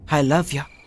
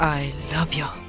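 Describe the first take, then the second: First: It is said in a casual, offhand tone. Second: It is said in a soft, romantic tone. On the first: "ఇలా కాదు" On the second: "కొంచెం రొమాంటిక్గా"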